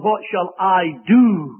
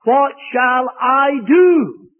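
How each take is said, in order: First: Slow "What shall I do?" with the fall on "do"; the preacher warning against the emphasis, slow stressed quote. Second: "What shall I do?" slow and loud, weight on "do"; the preacher demonstrating the wrong emphasis, slow loud stress. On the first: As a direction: repeat "What shall I do?" slowly, leaning on "do". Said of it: "don't lay the emphasis on". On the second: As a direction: drag out "What shall I do?" with a shout on "do". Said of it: "lay the emphasis on these words". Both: Shown as a demonstration.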